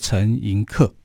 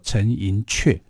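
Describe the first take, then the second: First: The last syllable uses the common Mandarin reading. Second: The last syllable uses the Hakka-based reading. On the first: The speaker calls it wrong. "很多人都把它念成叫做陈寅恪啊" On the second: The speaker calls it right. "其实应该正确的读法要读作陈寅恪啊"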